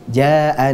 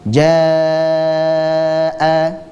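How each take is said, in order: First: The vowel is held only briefly. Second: The vowel is held for a long time. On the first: The speaker calls it wrong. "Jadi dua harakat saja" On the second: The speaker calls it right. "dibaca sepanjang empat atau lima harokat. Itu bacaan yang benar"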